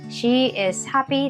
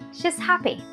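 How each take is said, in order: First: She is is said as two separate words. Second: She is is joined into one contracted word. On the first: The speaker calls it wrong. "You don't say word by word. ... Not really" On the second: The speaker calls it right. "You combine. That is better way"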